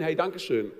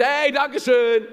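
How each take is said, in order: First: Said in the usual way. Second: High, loud, slow gushing thank-you; exaggerated cheery thanks. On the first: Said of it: "ich hab's gesehen". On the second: A driver rolling down the window to thank him, gushing and overdone. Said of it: "rausguckst, sagst".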